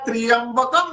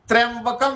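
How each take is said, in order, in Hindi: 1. 'tr' के बाद एक 'i' स्वर जोड़ा जाता है। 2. 'tr' सीधे 'yam' में जुड़ जाता है। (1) "हमारे मुख से निकल गया त्रियंबकम यजामहे" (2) "त्र्यंबकम यजामहे नहीं"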